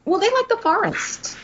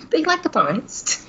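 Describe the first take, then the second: First: High silly voice; put-on voice. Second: Laughing through a high put-on voice. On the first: Cohost jokes about what they like, high silly voice. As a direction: pitch it way up as a joke. Joking voice of the creatures. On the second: Cohost repeats the joke, laughing. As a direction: giggle the line out.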